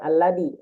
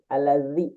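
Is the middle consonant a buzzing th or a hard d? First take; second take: hard d; buzzing th. First: The middle consonant is a hard d. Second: The middle consonant is a buzzing th. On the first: The speaker calls it wrong. "Bukan. Buat alladi" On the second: The speaker calls it right. "Ujung lidah ke gigi"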